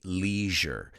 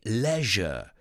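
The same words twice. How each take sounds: First: It is said in an American accent. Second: It is said in a British accent. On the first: "We say leisure. ... For Americans, it's leisure" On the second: "The British say leisure. ... for the British, the word pleasure and leisure rhyme"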